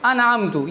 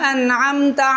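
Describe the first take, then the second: First: The final vowel is a short 'u'. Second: The final vowel is a short 'a'. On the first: The speaker calls it wrong. "जबर को पेश ... लहने जली" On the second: The speaker calls it right. "जबर था"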